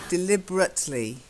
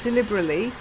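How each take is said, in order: First: The T sound in the middle is pronounced. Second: The T sound in the middle is dropped. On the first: The speaker calls it right. "You've still got to have the T" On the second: The speaker calls it wrong. "Not deliberately"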